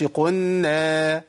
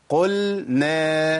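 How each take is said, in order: First: "قلنا" slowly as "qunna"; slow chant, doubled nun and no lam in "قلنا"; merged lam. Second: "قلنا" slowly as "qul-na"; slow chant, lam then nun in "قلنا"; clear lam. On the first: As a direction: turn the l of "قلنا" into a held n. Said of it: "ما أقولش". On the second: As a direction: keep a distinct l in "قلنا". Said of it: "يبقى إيه؟". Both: Shown as a demonstration.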